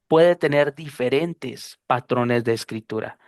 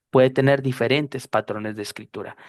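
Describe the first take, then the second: First: Puede tener diferentes patrones de escritura, slow and deliberate; slow, emphatic. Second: Said in the usual way. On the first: Shown as a demonstration. Teacher stresses the rule to the students slowly. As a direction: spell the key idea out slowly. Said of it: "repeats for emphasis".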